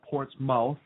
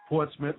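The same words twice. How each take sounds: First: "Portsmouth" with a full MOUTH ending; mispronounced. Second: "Portsmouth" with a reduced ending, PORTS-muth; correct pronunciation. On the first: Co-host showing listeners the mistaken name, mock wrong. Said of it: "not Portsmouth, so knock it off". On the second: Co-host correcting listeners on a town name, instructive. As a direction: say "Portsmouth" the local way, short second syllable. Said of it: "Portsmouth, not Portsmouth". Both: Shown as a demonstration.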